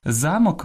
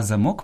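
First: Замок stressed on ЗА, higher; stress on first syllable. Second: Замок stressed on МОК; end-stressed замок; stress on last syllable. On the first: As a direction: say ЗА-мок. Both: Shown as a demonstration. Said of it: "наголос розрізняє значення слова".

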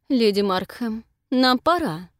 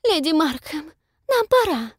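First: Curt, through gritted teeth. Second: Haughty mimicry, much higher, louder; mock a pompous society lady; pompous Lady Denby tone. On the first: Acted. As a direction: grit your teeth and cut it short. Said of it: "стиснув зубы". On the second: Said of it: "в точности копируя напыщенный тон леди Денби".

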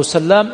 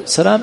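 First: سلام with a long doubled L. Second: سلام with one short L; single light L. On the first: Teacher asking about the other man, L doubled in سلام. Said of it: "أحيانا يذكره مشددا". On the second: Teacher asking whose son he is, single L in سلام. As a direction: say سلام lightly, L not doubled. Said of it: "أحيانا يذكره مخففا، أحيانا يذكره مشددا". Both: Shown as a demonstration.

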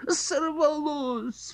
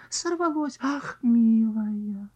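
First: High drawn-out cry of dismay. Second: High cry, then sighed dismay. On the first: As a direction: cry out at the lost fish. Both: Acted. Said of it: "вскрикнули".

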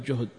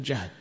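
First: جهد as "juhd", with a u; damma on the jim. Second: جهد as "jahd", with an a; fatha on the jim. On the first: Teacher shows students what not to say, جهد as "juhd". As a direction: say جهد with a short u after the jim. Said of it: "فلا تقل جهد في المشقة". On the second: Teacher corrects the word for hardship, جهد as "jahd". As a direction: say جهد with a short a after the jim. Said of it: "وإنما تقول جهد". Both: Shown as a demonstration.

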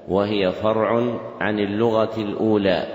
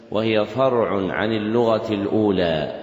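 The two takes are said the same way.

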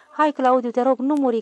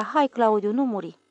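First: Raised and pleading, higher; louder tearful plea. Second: Said in the usual way. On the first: Acted. Little girl begs her brother, louder pleading. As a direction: beg him loudly not to die.

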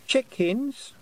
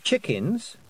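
First: Put-on very high, rising toddler voice; obedient small child. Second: Higher, rising corrective prompt; severe correction. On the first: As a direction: echo it back as a dutiful little child. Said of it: "said Wentworth obediently". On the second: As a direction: correct a small child with mild severity. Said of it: "said Tiffany severely". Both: A narrator's reading.

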